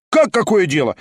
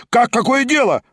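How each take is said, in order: First: Higher, rising outcry; outraged cry; exclamation. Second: Much higher, stronger outcry; outraged cry, stronger; louder exclamation. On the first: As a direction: start of indignant outcry. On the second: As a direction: repeat it more indignantly. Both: A narrator's reading. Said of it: "раздались восклицания".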